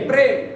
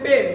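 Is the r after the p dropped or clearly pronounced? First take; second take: pronounced; dropped. First: The r after the p is clearly pronounced. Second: The r after the p is dropped. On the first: The speaker calls it right. "কি হবে" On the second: The speaker calls it wrong. "আমরা বলি প্রেম"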